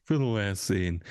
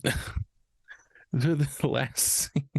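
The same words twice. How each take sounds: First: Said in the usual way. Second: Words broken up by real laughter, very slow; can't get it out for laughing; laughing through words. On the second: Real, not acted. Restarts intro after laughing fit.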